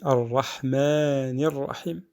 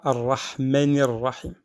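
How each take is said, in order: First: A vowel is held longer. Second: A vowel is cut short. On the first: The speaker calls it right. "On dit" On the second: The speaker calls it wrong. "On ne dit pas"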